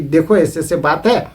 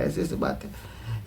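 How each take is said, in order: First: Said in the usual way. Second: Slow, hushed whisper to his wife; late-night whisper so the secret stays in the house. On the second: Retold or imitated. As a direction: whisper it slowly, as if not to be overheard. Husband tells wife at night.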